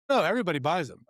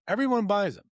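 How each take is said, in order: First: Said in the usual way. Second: Higher, louder incredulous repeat of "Everyone"; disbelieving echo. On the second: Retold or imitated. The manager repeats the news in disbelief. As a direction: echo it back like you can't believe it.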